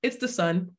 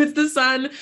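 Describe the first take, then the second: First: Said in the usual way. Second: "the" lifted high and louder, "it's the sun"; playful insistence, punching "the" higher and louder; stress on "the". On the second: Real, not acted. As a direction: lean hard on "the" in "it's the sun". Emphatic repeat of the punchline.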